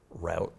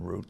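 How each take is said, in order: First: Route rhyming with "out"; regional pronunciation. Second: Said in the usual way. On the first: Shown as a demonstration. Town official showing how they said it down there, route as "rowt". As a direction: say route with an "ow" vowel. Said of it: "they would say route instead of route". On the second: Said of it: "instead of route".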